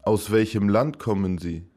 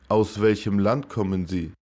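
Both takes have the same delivery.

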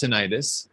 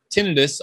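First: "tinnitus" said tih-NYE-tus; alternative pronunciation. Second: Said in the usual way. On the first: Shown as a demonstration. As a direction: stress the middle of "tinnitus", with a long eye vowel. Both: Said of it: "also pronounced tinnitus".

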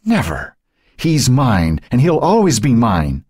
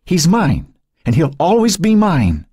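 First: Spew it at her sister; venomous fury. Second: Much higher and louder, desperate screech; snatch at the baby with every word; venomous fury at its peak. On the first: Dying Cynthia spewing fury at Joan. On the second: Dying Cynthia shrieking at Joan as she reaches for the baby. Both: Acted. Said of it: "Fury and venom spewed".

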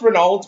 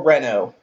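First: "Renault" as spelt, ending in "-olt"; sounded-out ending. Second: "Renault" ending in an open "oh", no L or T; silent T. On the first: Streamer asking friends about pronunciation, "Renault" with sounded ending. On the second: Streamer asking friends about pronunciation, "Renault" with silent ending. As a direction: say "Renault" as "ren-OH". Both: Shown as a demonstration. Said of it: "Is it pronounced Renault or Renault".

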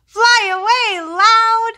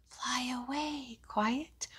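First: Much higher and louder call. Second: Whispered softly. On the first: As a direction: belt it out like a shout. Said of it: "one named Loud". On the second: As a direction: breathe it out in a whisper. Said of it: "one named Quiet". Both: Shown as a demonstration.

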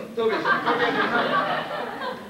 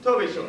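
First: Much higher, very slow, laughing through it; mocking the officer's words with a laugh; laughing mock echo. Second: Said in the usual way. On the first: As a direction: stretch it out high with a laugh. Repeats phrase, then mocks it.

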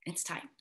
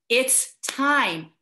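First: A near-silent, breathy "It's time"; hushed. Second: "It's time" said plainly and firmly, falling on "time". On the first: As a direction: drop almost to nothing on "It's time". Solemn closing words, almost inaudible. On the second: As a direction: land "It's time" with a clear fall on "time". Repeats closing words firmly. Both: Real, not acted.

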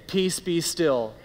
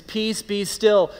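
First: A tender, hushed "Peace, be still"; gentle reassurance. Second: Slow, firm "Peace, be still" with a falling close on "still"; a stern, deliberate "Peace, be still"; commanding rebuke. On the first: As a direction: soothe a troubled heart. Spoken gently to the heart. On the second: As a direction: command the storm to calm. Spoken to the circumstances. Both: Acted.

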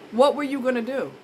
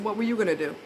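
First: What raised and hit harder; What were you gonna do, What pushed up; stress on What. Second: Said in the usual way. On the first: Shown as a demonstration. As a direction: press the point on What.

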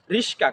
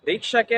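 First: রিস্কা with s and k swapped round; Gazipur dialect. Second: Said in the usual way. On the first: Shown as a demonstration. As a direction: say রিস্কা as "rish-ka", k after the sh. (গাজীপুরের উচ্চারণে রিস্কা, স আগে ক পরে) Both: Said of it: "আমাদের গাজীপুরের ভাষায়".

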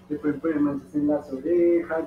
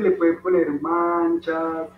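First: Said in the usual way. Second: Put-on slow and deliberate for the kids; slow teacher's emphasis on le pueden poner manchas; slow, spelled out. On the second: Shown as a demonstration. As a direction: lay each word down slowly so children follow. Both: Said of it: "Ya es súper fácil".

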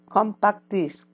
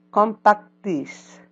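First: Said in the usual way. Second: Slowed model of Compact disc; slow model word. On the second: Shown as a demonstration. Teacher slows down to model the word. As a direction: draw out Compact disc for the class. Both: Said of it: "repeat after me".

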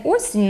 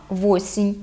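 First: Said in the usual way. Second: Восінь with v put in front; added first consonant. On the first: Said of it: "не осінь". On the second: Shown as a demonstration. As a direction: Podillia восінь, "VO-sin". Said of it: "мають приставний звук".

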